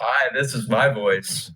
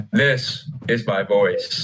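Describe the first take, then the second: First: Slow, lowered introduction; put-on intro voice. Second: Very slow, exaggeratedly deep voice; lowered voice. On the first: Podcast host introducing his voice to viewers, slow and lowered. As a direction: say hello slowly, a little deep. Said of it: "Actually, no, this is, ... let me do my actual voice". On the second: Friend showing off his supposed actual voice to viewers, deliberately lowered. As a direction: drop it low and draw it out. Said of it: "You lowered your voice". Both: Shown as a demonstration.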